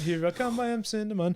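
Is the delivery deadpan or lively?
lively. It is said in a lively, expressive voice. It is the cereal commercial's motto. "like the Applejack's uh, motto"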